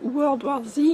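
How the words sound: It is said with an American accent. "à l'américaine"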